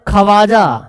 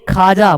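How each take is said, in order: First: A w sound follows the kh sound. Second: No w sound follows the kh sound. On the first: The speaker calls it wrong. "खवाजा नहीं" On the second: The speaker calls it right. "खाजा बोलते हैं"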